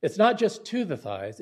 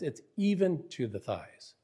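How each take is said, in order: First: "to" stressed, with "just" set up for contrast. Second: "even" punched, then falling through "to the thighs"; stress on EVEN. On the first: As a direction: lean on "to" as the insufficient version. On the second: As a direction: correct it by hitting the word "even". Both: Shown as a demonstration. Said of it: "But that is an emphasis".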